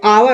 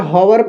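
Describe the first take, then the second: First: The word begins directly with a vowel sound. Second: The word begins with an audible h sound. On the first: The speaker calls it right. "एच क्या होता है, silent होता है ना" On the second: The speaker calls it wrong. "हॉवर इसका उच्चारण नहीं होता है"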